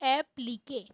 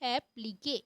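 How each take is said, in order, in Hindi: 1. शब्द का अंत 'kay' की आवाज़ से होता है। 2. शब्द का अंत 'kay' की आवाज़ से होता है।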